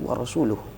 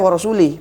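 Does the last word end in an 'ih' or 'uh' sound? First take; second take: uh; ih. First: The last word ends with an 'uh' sound. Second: The last word ends with an 'ih' sound. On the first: The speaker calls it right. "padahal yang benar itu wa rasuluh" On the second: The speaker calls it wrong. "Dia baca wa rasulih"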